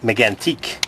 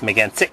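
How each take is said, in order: First: The last syllable is said like 'teak'. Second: The last syllable is said like 'tick'. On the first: The speaker calls it wrong. "what do they call it?" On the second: The speaker calls it right. "With the enunciation on the tsick"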